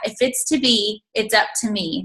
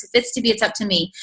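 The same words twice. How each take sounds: First: Said in the usual way. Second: "If it's to be, it's up to me" rattled off fast; rattled-off motto. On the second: Shown as a demonstration. Speaker repeats her theme song quickly, fast. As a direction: rush the whole motto out in one breath. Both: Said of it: "that's been my theme song".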